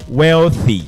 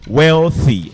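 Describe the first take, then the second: First: The 'th' is a voiceless hissing sound. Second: The same.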